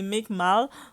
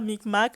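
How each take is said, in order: First: The name ends with an l sound. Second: The name ends with a k sound. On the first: The speaker calls it right. "c'est Micmal" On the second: The speaker calls it wrong. "c'est pas Micmac"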